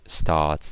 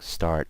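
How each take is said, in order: First: The R sound is silent, British style. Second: The R sound is pronounced, American style. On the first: "the R is usually silent" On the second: "I pronounce it with the American accent"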